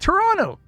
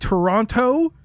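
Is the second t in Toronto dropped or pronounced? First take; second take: dropped; pronounced. First: The second t sound is dropped entirely. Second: The second t sound is clearly pronounced. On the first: The speaker calls it right. "You don't say the T" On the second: The speaker calls it wrong. "some guy saying Toronto"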